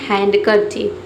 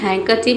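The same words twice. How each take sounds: First: The d sound is clearly pronounced. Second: The d sound is left silent. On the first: It is read as spelled to help with writing. "लिखते समय अपने मन में क्या पढ़ना है?" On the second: This is how the word is normally said. "इसमें जो डी लेटर है ये साइलेंट रहता है।"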